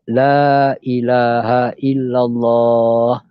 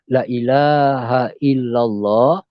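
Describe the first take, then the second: First: The first 'la' vowel is held long. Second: The first 'la' vowel is cut short. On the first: There is no god but Allah. The speaker calls it right. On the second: Surely there is a god other than Allah. The speaker calls it wrong.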